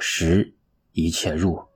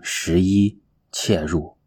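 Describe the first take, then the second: First: The phrase breaks after the word 十. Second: The phrase breaks after the word 十一. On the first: It means ten all-pervading entries. The speaker calls it right. "十是有10 个精神物理的功能" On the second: It means eleven entries. The speaker calls it wrong. "千万不要念成11 切入，那就错了"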